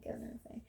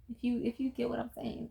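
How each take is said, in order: First: Whispered, much softer, conspiratorial; whispered aside. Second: Said in the usual way. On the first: Real, not acted. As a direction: lean in and whisper the hint. Hinting aside to viewers.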